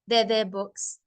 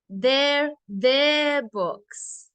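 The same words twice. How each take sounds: First: The word their is said without extra stress. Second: The word their is said with strong stress. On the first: The speaker calls it wrong. "I don't want to just say" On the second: The speaker calls it right. "we stress the adjective"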